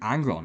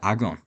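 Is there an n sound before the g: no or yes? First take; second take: yes; no. First: An n sound comes before the g. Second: No n sound comes before the g. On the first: "My accent makes me drop one of the G's and add an N in" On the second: "instead of"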